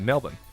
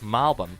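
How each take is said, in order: First: It is said 'Mel-born', the Adelaide way. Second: It is said 'Mal-bn', the Melbourne way.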